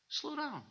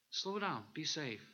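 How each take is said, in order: First: High, soft warning voice; a high little voice inside saying slow down; inner voice. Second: Gently repeating the warning, softer; softer inner voice. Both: Retold or imitated. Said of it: "This little thing that just said".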